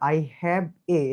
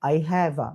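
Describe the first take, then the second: First: The article is said as a full 'ay'. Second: The article is said as a short 'uh'. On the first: The speaker calls it wrong. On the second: The speaker calls it right.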